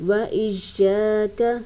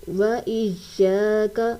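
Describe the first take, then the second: No difference in how they are said.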